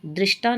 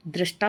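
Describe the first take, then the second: First: दृष्टा with an i, drishta; wrong pronunciation. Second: दृष्टा with an a, drashta; correct pronunciation. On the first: Teacher showing the error, दृष्टा as drishta. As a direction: say दृष्टा with dri. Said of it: "नहीं होता". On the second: Teacher correcting the word, दृष्टा as drashta. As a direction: say दृष्टा with dra. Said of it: "होता है". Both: Shown as a demonstration.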